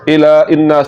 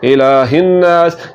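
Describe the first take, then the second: First: A glottal stop comes before 'innas'. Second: An h sound comes before 'innas'. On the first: The speaker calls it wrong. "हा की जगह पर हमजा की आवाज़ निकाल रहे होते हैं ... तो ये गलत है" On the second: The speaker calls it right. "हा की आवाज़ ही निकालनी है और इसको पढ़ना है इलाहिन्नास"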